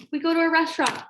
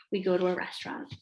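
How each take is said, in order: First: Higher, emphatic restatement; mock-momentous repeat; dramatic announcement. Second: Said in the usual way. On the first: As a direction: announce it like a looming crisis. Repeats line as a dramatic event.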